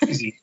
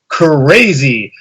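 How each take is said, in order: First: It starts directly with the 'cr' cluster. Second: A short schwa is inserted between 'c' and 'r'. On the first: "we have crazy" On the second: "if you put the schwa in the beginning"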